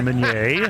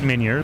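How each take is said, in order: First: The name is said with French pronunciation. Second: The name is said with English pronunciation. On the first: Someone else said it this way. The speaker calls it wrong. "thank you for the French pronunciation" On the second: This is how the owner says it. The speaker calls it right. "I pronounce it Meunier"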